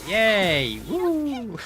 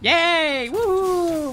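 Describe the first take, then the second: First: The cheer sounds flat and unenthusiastic. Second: The cheer sounds lively and enthusiastic. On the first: The speaker calls it wrong. "do I do I sound excited?" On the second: The speaker calls it right. "Is that better?"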